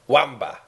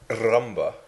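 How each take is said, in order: First: The word begins with a W sound. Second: The word begins with a clear R sound. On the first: "I'll say it like Len" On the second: "I can say the word rumba"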